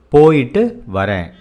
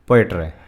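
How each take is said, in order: First: It is said at a careful, normal pace. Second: It is said fast and run together.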